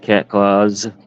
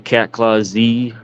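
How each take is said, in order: First: The final Z is blended into one word. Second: The final Z is said as a separate letter. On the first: "I just pronounce it cat claws" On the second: "some people say cat claw Z"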